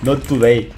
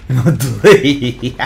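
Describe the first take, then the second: First: Said in the usual way. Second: Very slow, louder, drawn-out taunt. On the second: Pretend. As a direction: stretch each word out to tease. Catchphrase said twice differently. (burla lenta y alargada)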